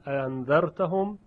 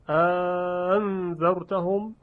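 First: The second hamza is softened, eased into the vowel. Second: A lengthened vowel separates the two hamzas. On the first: "تسهیل" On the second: "مد"

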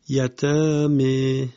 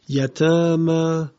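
First: The final vowel is tilted toward 'e'. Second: The final vowel is a plain open 'a'.

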